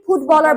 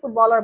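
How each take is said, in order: First: The first sound is made with both lips closed. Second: The first sound is made with lip on teeth. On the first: The speaker calls it wrong. "ফুটবলারকে ফুটবলার বলতে পারবেন না" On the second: The speaker calls it right. "ফুটবলারকে ফুটবলার বলতে হবে"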